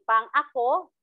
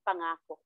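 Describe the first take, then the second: First: A glottal catch separates pang from ako. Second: The syllables run together with no glottal catch. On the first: Meant for me. "ginagamit ang gitling sa tunog na impit" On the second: A promise. "kapag wala ng gitling"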